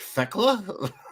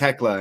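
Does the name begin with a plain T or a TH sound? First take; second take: TH; T. First: The name begins with a th sound. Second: The name begins with a plain t sound. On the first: This is how the speaker read it. The speaker calls it wrong. "and I was like" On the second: This is how others pronounced it. The speaker calls it right. "They kept saying"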